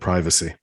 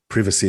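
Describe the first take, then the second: First: It is said in an American pronunciation. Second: It is said in a British pronunciation. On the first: The speaker calls it right. "instead of privacy" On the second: The speaker calls it wrong. "you you you said um, privacy"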